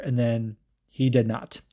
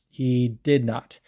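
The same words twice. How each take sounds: First: Said in the usual way. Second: "did" leaned on, the rest slow and flat; slow deadpan stress on did. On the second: Shown as a demonstration. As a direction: land "He did not" slowly, pressing "did".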